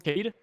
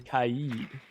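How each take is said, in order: First: The name is said in a short, clipped form. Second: The name is said in its longer, full form. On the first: A casual nickname used while playing. "just because it's so much faster to say" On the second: The proper name used while casting. "I always say Kaid"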